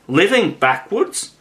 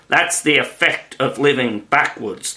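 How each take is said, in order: First: Astonished, rising question. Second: Gently explaining Queen; kind, patient explanation; kindly. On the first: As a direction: echo it in disbelief. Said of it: "in great astonishment". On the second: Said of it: "the Queen said kindly". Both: A narrator's reading.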